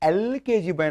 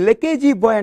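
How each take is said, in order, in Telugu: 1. మొదటి పదం E అచ్చు ధ్వనితో మొదలవుతుంది. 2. మొదటి పదం L హల్లు ధ్వనితో మొదలవుతుంది. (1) "ఏ అనేటువంటి ఓవెల్ సౌండ్తో స్టార్ట్ చేస్తున్నాం" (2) "దీన్ని లెకేజీ బాయ్ అంటున్నారా"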